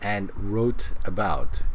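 The words are said separately with even weight. The speaker calls it wrong. "She says, and wrote about"

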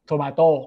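It is said with a Thai accent. "มะเขือเทศผมจะออกเสียงว่า"

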